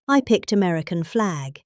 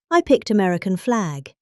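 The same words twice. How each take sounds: The two takes are said the same way.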